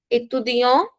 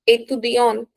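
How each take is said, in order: First: "Étudiant" rising onto an open nasal vowel; masculine ending. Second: "étudiante" closed on a sounded consonant; stressed feminine ending. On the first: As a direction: leave the t of "Étudiant" silent. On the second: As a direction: press the final syllable of "étudiante". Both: Shown as a demonstration. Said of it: "we put stress on feminine noun".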